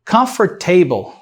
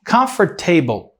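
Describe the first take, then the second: Both takes have the same delivery.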